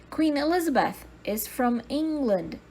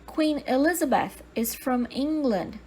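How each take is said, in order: Both takes have the same delivery.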